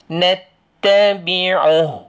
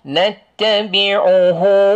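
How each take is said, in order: First: The final vowel is dropped and cut off. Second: The final vowel is held long. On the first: The reading stops here. "kalau kita wakaf, ... kita tak panjang" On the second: The reading continues to the next word. "Sebab baca sambung, hu tu panjang"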